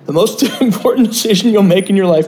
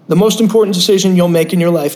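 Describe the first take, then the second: First: It is said in a thick Brooklyn accent. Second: It is said in the speaker's ordinary accent.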